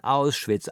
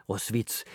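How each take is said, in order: First: "Auschwitz" with clear German "Owsh-vits"; correct German pronunciation. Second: "Auschwitz" mocked as French "Os-vits"; French-style mispronunciation. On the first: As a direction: sound the "au" and "sch" in "Auschwitz" emphatically. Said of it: "Lern erst mal das richtig auszusprechen". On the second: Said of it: "wie die französischen Geuß". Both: A narrator's reading.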